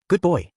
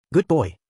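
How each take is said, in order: First: A mother's praise, higher and louder; remembered mother. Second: Put-on a little girl's gentle good boy, higher and louder; child soothing. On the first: Acted. Garfield recalling his mother's words, tender praise. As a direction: praise him like his mum once did. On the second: Mimi hugging crying Garfield, childlike soothing.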